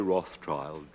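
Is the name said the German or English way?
English. It is said the English way.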